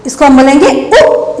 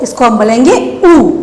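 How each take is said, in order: First: Final उ said as a short, quick u. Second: Final ऊ held as a longer oo, falling. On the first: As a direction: end on a brief उ, not held. (आख़िर में छोटा उ) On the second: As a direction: end on a lengthened ऊ. (आख़िर में लंबा ऊ) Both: Shown as a demonstration.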